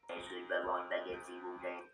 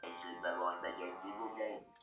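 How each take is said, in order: First: The pitch stays flat throughout. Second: The pitch rises and falls throughout.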